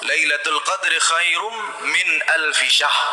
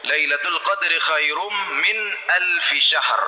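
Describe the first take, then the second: First: The last word ends without an r sound. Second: The last word ends with an r sound. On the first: The last word means goat or king. The speaker calls it wrong. "tidak ada ra-nya. Ini sudah jadi kesalahan yang sangat fatal" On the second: The last word means month. The speaker calls it right. "Ada ra-nya"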